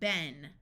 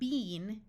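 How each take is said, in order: First: The vowel is a short E sound. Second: The vowel is a long E sound. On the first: The speaker calls it right. "These words have the short E sound" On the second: The speaker calls it wrong. "not been in American English"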